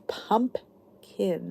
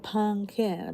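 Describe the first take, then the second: First: Pumpkin broken slowly into PUMP, kin; correct pronunciation. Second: Pumpkin as "pun-kin", slow and softer; incorrect pronunciation. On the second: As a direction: drop the middle P in pumpkin, slowly. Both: Shown as a demonstration. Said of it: "not pumpkin".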